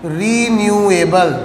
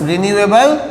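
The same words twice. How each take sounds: First: Renewable stretched slowly over each syllable; drawn-out term. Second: Said in the usual way. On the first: Shown as a demonstration. Term dictated slowly, then repeated.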